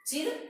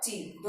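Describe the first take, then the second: First: चिर said on a quick short i. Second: चीर with a lengthened ee; long i. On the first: Teacher checking pupils hear it, चिर with short i. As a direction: say चिर with a brief vowel. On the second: Teacher checking pupils hear it, चीर with long ee. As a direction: hold the vowel of चीर long. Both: Shown as a demonstration. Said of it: "दोनों के उच्चारण में फर्क नजर आया".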